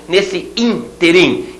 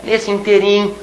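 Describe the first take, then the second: First: Interim slow with the stress on IN; correct pronunciation. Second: Interim stressed on TE; wrong pronunciation. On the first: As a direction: say Nesse interim slowly, stressing IN. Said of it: "palavra proparoxítona". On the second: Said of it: "não pode, hein". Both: Shown as a demonstration.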